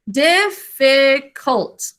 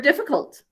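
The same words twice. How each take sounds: First: "Difficult" very slow, dif... fi... cult; three separated syllables. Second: Said in the usual way. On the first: Shown as a demonstration. Teacher counting three syllables, very slow "Difficult" in separate beats. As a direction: stretch and part each syllable of "Difficult". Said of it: "Three syllables". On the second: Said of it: "it's the word difficult".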